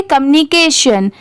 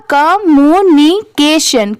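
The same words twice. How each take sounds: First: communication said quickly as one word; quick fluent reading; at speed. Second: communication drawn out into separate syllables; deliberately slow teaching read. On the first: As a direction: run communication together at natural pace. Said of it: "इसे speed में पढ़ेंगे". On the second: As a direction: spell out communication slowly, piece by piece. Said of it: "ऐसे इसे slow में नहीं पढ़ेंगे". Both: Shown as a demonstration.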